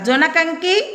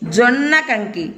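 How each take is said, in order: First: The n in the first word is short. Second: The n in the first word is doubled. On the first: "ఒకవేళ నా ఒత్తు లేకపోతే ఏమని చదవాలా?" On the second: "నాకు నావత్తిస్తే ఒత్తి పలకాల"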